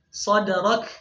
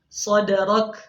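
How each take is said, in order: The two takes are said the same way.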